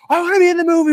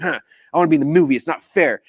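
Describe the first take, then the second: First: Very high, loud, hammed-up eager squeal; mock group frenzy of excitement; freaking out. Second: Quick, huffy mock pout; huff, then grumble in mild protest; frustrated sulk. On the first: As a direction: beg to be picked like an overexcited fan. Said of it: "We're freaking out". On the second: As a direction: sulk like a kid left out. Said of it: "so frustrated".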